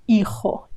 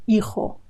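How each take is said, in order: Both takes have the same delivery.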